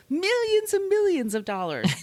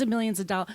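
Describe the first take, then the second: First: Sing-song mock awe, pitched way up; over-the-top mock wonder; mock grandiose. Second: Said in the usual way. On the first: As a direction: ham up the legend of his riches. Mocking the famous Hughes claim.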